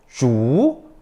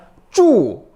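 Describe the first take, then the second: First: The pitch rises from mid to high. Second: The pitch falls sharply from high to low. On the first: "이성" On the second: "사성"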